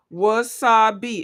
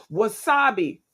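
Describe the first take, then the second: First: "Wasabi" slowly in three beats, wa-sa-bi; syllable by syllable. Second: Said in the usual way. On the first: Shown as a demonstration. Host counting syllables in a guess, "Wasabi" in three beats. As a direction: separate each syllable of "Wasabi". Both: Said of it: "Wasabi is three".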